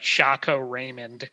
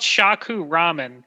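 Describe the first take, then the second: First: The second word sounds like 'Raymond'. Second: The second word sounds like 'ramen'. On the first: This is how a computer voice misread the name. The speaker calls it wrong. "that's how like the A I voice uh, reader read the name. It was like Shaco Raymond" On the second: This is the actual name of the shop. The speaker calls it right. "it's called Shaku Ramen"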